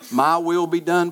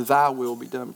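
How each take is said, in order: First: "my" lifted and leaned on; stress on MY. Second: "thy" marked, phrase settling lower; stress on THY. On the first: Preacher questioning self-centered prayers, "my" stressed in contrast. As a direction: lean on "my", pitched up for contrast. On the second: Preacher offering the submissive prayer, "thy" stressed as pitch settles. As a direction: set "thy" against the other, then settle down. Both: Shown as a demonstration.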